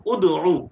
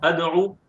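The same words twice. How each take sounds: First: उदऊ said with a rounded u at the start, ud-oo; उदऊ, u-sound first, set against अदऊ; demo pronunciation. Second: अदऊ said with an open a at the start, ad-oo; अदऊ, a-sound first, set against उदऊ; demo pronunciation. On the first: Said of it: "और ये है". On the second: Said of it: "similar है ना देखने में". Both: Shown as a demonstration.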